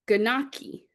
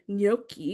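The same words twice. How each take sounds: First: It is sounded out letter by letter from spelling. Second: It is said with the usual Italian pronunciation. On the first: The reader had never heard the word before. The speaker calls it wrong. "I said gnocchi" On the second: The reader knows the word from speech. The speaker calls it right. "which is actually gnocchi"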